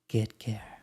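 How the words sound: It is said in a confident, self-assured tone. "or something that is more self-assured"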